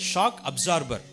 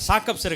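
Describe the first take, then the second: First: It is said in full as two separate words. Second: It is said as one short, blended colloquial word. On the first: This is the original English term. The speaker calls it right. "அது ஒரு ஆங்கில வார்த்தை" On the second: This is the everyday local way of saying it. The speaker calls it wrong. "அது சாக்கப்சர் கிடையாது"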